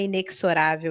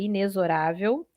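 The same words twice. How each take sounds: First: The x is sounded like ks. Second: The x is sounded like z. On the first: The speaker calls it wrong. "Cuidado, não é inexorável" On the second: The speaker calls it right. "em que o X tem som de Z"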